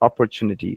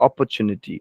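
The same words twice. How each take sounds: First: It is said with an American English accent. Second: The same.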